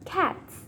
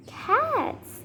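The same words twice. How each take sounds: First: Said in the usual way. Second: High, swooping "Cats" in disbelief; incredulous. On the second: Acted. Learning the animal man keeps cats, incredulous. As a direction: send "Cats" way up, amazed.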